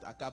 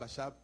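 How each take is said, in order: First: The middle consonant is a hard 'k' sound. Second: The middle consonant is a soft 'sh' sound. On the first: "Peu importe" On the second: "vous pouvez aussi les prononcer Achab"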